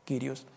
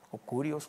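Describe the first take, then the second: First: "Kyrios" as kee-ree-os; preferred pronunciation. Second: "Kurios" with an oo sound after the K; alternate pronunciation. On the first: Preacher settles on the correct Greek pronunciation for listeners. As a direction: say "Kyrios" with an ee sound after the K. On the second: Preacher gives the variant Greek pronunciation to listeners. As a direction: say "Kurios" as the less correct variant. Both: Shown as a demonstration. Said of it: "la pronunciación creo más correcta".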